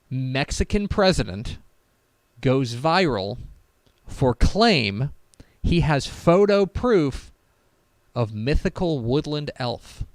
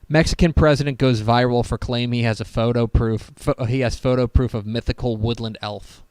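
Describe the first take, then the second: First: It is read slowly. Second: It is read at a normal speed.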